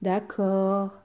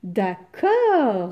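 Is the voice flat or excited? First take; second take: flat; excited. First: It is said in an even, flat voice. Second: It is exclaimed with a rising, joyful voice.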